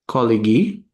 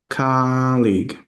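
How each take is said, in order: First: The word is said with three syllables. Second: The word is said with two syllables. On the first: The speaker calls it wrong. "you're kind of saying it with three syllables" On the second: The speaker calls it right. "we want to pronounce it with two. And we want to have the stress be the first syllable"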